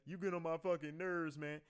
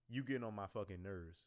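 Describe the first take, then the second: First: It sounds playful and joking. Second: It sounds serious and hostile.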